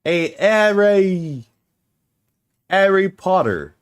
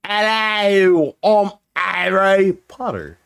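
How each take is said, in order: First: HARRY said without its H, as 'Arry, drawn out; dropped H's. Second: Hammed-up British accent, higher and drawn out. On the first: Shown as a demonstration. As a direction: drop the H at the start of HARRY. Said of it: "What if I couldn't say H's?". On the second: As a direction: put on a mock British accent. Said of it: "randomly got a British accent".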